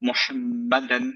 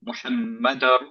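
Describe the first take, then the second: First: The final n sound is clearly pronounced. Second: The final n merges into the next sound.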